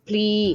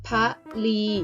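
First: The initial cluster is blended into one syllable. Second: A short vowel splits it into two syllables. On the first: It means to sacrifice. "ให้อ่านออกเสียงแบบคำควบกล้ำแท้ออกเสียงว่าพลี" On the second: It means to worship or make offerings. "ให้อ่านออกเสียงว่าพะลี"

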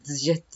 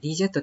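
First: The D merges into the J sound. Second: The D is sounded as a separate syllable. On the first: "このD とJ っていうのはね、本当重ねるようにこのこの発音するとね" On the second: "ディージェットって発音するのかと思ってたら"

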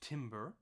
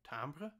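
First: The word is said with a plain English pronunciation. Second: The word is said with a French-style pronunciation. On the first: The speaker calls it wrong. "Not timbre" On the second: The speaker calls it right. "we say timbre because it comes from French"

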